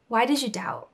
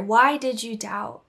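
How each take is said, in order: First: Said in the usual way. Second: Why did you doubt said slowly, each word weighed; slow emphasis. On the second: Shown as a demonstration. Preacher repeating Jesus's question to listeners, slow and weighty.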